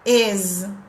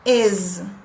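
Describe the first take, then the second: First: The word ends with a buzzing z sound. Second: The word ends with a buzzing z sound.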